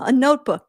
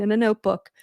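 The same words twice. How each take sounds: First: Notebook said louder, as if it were a quaint relic; mock old-fashioned emphasis. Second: Said in the usual way. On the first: Shown as a demonstration. Grandma explaining notebooks to the kids, louder and stressed. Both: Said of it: "'cause I'm grandma".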